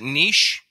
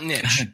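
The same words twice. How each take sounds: First: The word is said as neesh, rhyming with leash. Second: The word is said as nitch, rhyming with pitch. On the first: This is the way the show says it. The speaker calls it right. "we pronounce it niche" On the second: This is the way the show does not say it. The speaker calls it wrong. "not niche"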